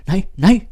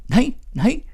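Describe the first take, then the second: First: High, loud startled protest; a girl pushing back a kiss, high and loud; flustered refusal. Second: Much higher put-on girl's voice, loud; a higher, louder girlish protest; shrill flustered refusal. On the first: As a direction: fend him off, flustered and loud. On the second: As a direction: squeal the no's in a girl's voice. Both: A narrator's reading. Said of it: "Mette svalrede op".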